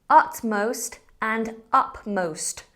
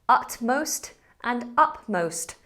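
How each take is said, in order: Both takes have the same delivery.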